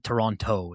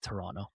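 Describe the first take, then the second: First: The second t sound is clearly pronounced. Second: The second t sound is dropped entirely. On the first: The speaker calls it wrong. "It's not Toronto" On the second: The speaker calls it right. "we don't pronounce the second T"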